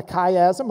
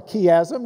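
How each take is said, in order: First: "chiasm" said as "KAI-asm"; "chiasm" with hard K and long i; KAI-asm pronunciation. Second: "chiasm" said as "KEE-asm"; "chiasm" with hard K and ee vowel; KEE-asm pronunciation. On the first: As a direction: start "chiasm" like "sky" without the s. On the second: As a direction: start "chiasm" like "key". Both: Shown as a demonstration. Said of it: "depending on how you tran-, uh, pronounce it".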